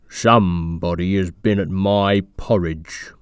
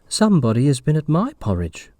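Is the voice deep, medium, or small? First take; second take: deep; medium. First: It is said in a deep, gruff voice. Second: It is said in a medium voice.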